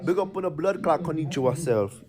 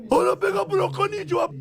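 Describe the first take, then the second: First: Said in the usual way. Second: Much higher and fast, like a chipmunk; squeaky sped-up voice. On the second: Pretend. Hyping up the konnichiwa phrase in a squeaky, fast voice. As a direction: squeak it out quickly, playfully.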